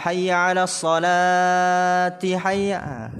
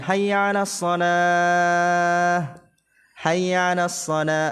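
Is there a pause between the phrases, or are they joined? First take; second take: joined; pause. First: The phrases run together without a pause. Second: There is a pause after each phrase.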